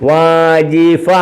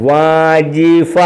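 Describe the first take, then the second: No difference in how they are said.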